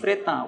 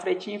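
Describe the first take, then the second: First: The name is said the French way. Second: The name is said the Brazilian way. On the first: This is the founder's original name. "francês, né? Seria Louis" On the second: This is how people in Brazil came to say it. "no Brasil o pessoal começaram a falar"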